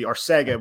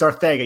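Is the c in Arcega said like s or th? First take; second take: s; th. First: The c is said as an s sound. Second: The c is said as a th sound. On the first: The speaker calls it wrong. "to Americans it would be Arcega with a C" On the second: The speaker calls it right. "you pronounce that with the TH"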